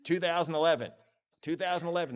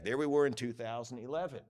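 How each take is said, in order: First: Higher, punchy rallying delivery; mock excitement. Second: Falling, let-down delivery; mock deflated. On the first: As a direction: bounce back up with excitement. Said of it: "This is like an emotional whirlwind". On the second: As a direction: let it sink at the end. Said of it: "that's rather deflating for all of us".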